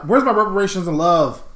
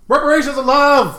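First: Said in the usual way. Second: High, raised mock-outraged cry; comic high-pitched yell; yelled demand. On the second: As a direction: call it out high like a protest. Repeats comic demand, now yelled.

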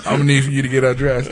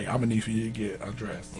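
First: Fast, pushy repeat of the nurse's request; doubling down. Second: Softer mock nurse's request. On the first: Retold or imitated. Nurse repeating her request to the patient, fast and insistent. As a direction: rattle it off as she doubles down. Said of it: "she doubled down on it". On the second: Nurse asking the patient to undress, said low and hushed. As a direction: hush it like an awkward nurse's order. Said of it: "look like this lady look and say".

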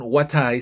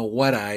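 First: "what I" with a clear t, the two words apart; teacher shows how it is not said; wrong way, separated. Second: "what I" blended as "wara" with a flapped t; teacher shows the native way; American linking. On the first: "what I" said apart with a hard t. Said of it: "no es como un what I". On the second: "what I" run together as "wara". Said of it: "sino what I". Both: Shown as a demonstration.

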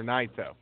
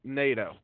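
First: "Naito" said as NIGH-toh, long I; pronounced NIGH-toh. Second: "Naito" said as NAY-toh, long A; pronounced NAY-toh. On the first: Host offering another pronunciation, Naito as NIGH-toh. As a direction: say "Naito" with a first syllable like "night". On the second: Co-host reading out match results, Naito as NAY-toh. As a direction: say "Naito" with a first syllable like "neigh". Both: Shown as a demonstration. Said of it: "however you say it".

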